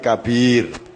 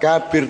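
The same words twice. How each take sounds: First: The second syllable is held longer. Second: The first syllable is held longer. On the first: The speaker calls it right. "Jadi B-nya yang panjang, K-nya pendek" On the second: The speaker calls it wrong. "bukan kabir"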